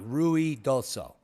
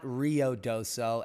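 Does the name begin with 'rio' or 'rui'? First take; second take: rui; rio. First: The name begins with a 'rui' sound. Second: The name begins with a 'rio' sound. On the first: The speaker calls it right. "It's Rui, R U I, Ruidoso" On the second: The speaker calls it wrong. "It's not Rio Doso, as that uh, reporter claimed it to be"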